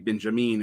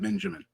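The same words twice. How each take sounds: First: The name is said with German pronunciation. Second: The name is said with English pronunciation. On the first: "pronounce the second name ethnically" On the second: "as opposed to"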